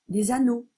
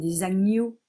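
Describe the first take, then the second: First: The consonant is said as a plain n. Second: The consonant is said as gn. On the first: The speaker calls it wrong. "comme si je disais ne à la place de gne" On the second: The speaker calls it right. "ce sont des agneaux"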